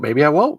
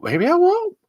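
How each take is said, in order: First: Said in the usual way. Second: Same words jumped way higher with a rising end; squeaky high repeat. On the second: Acted. Host repeating his joke about dying in a high squeak. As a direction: squeak it up in mock worry.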